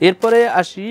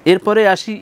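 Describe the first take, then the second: No difference in how they are said.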